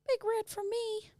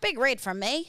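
First: It is said in an American accent. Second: It is said in an Australian accent. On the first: The speaker calls it wrong. "So Kevin, the koala, is now American" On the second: The speaker calls it right.

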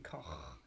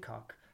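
First: The name is pronounced the German way. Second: The name is pronounced the English way, as written. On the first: "he was German, so it should be Koch" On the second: "let's pronounce it the way it's written"

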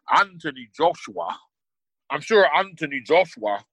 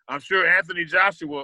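First: It is said in a put-on British accent. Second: It is said in the speaker's normal accent.

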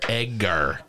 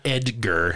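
First: The middle consonant is a hard g sound. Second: The middle consonant is a soft j sound. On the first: The speaker calls it right. "Egg. A-R. E-G-G-A-R" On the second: The speaker calls it wrong. "Not Edgar"

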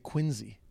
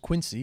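First: It is pronounced the way locals say it. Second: It is pronounced the way it is spelled. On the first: This is how locals say the name. "But in Boston, they say Quincy" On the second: This is how an outsider says the name. "what I thought was Quincy, because it's Q-U-I-N-C-Y"

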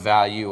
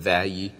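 First: It is said in the speaker's plain accent. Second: It is said in a Mississippi accent.

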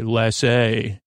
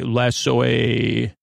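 First: The word is said quickly and compactly. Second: The word is drawn out slowly. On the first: The speaker calls it right. "We just say lassay" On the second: The speaker calls it wrong. "But we don't say it that slow"

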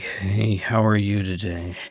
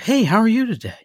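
First: The greeting sounds grudging and insincere. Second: The greeting sounds friendly and cheerful.

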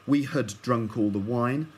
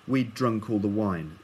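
First: The word 'had' is pronounced in full. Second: The word 'had' is contracted to 'we'd'. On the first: "You might hear people say" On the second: "in quick speech, it'll be"

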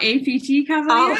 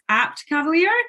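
First: APT is spelled out as three separate letters. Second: APT is said as a single word, apt. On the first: The name is treated as an abbreviation. The speaker calls it wrong. "not APT Cavalier" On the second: The name uses the word apt, meaning fit for purpose. The speaker calls it right. "So it's APT Cavalier"

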